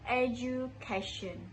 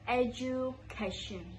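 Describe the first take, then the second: First: The middle syllable starts with a j sound. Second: The same.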